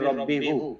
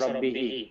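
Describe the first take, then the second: First: The final pronoun ends with an u vowel. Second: The final pronoun ends with an i vowel. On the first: This is the original, harder form. The speaker calls it wrong. "Originally ছিল মির রব্বি হু, কিন্তু এই রব্বি হু উচ্চারণ করা difficult" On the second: This is the form used for easier pronunciation. The speaker calls it right. "সেই জন্য এটা হয়ে গেছে রব্বি হি"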